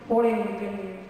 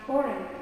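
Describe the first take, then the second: First: The G is sounded in the word. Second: The G is silent in the word. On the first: The speaker calls it wrong. "not foreign" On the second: The speaker calls it right. "The G is not often not pronounced when followed by an N"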